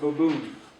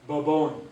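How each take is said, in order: First: It ends with an 'oo' vowel, Walpole dialect. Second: It ends with an 'oh' vowel, the usual dialect.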